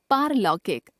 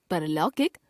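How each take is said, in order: First: Said in the usual way. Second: परलौकिक with short "par"; mispronounced first vowel. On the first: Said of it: "शुद्ध". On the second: Shown as a demonstration. Teacher showing a common error, परलौकिक with short first vowel. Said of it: "अशुद्ध".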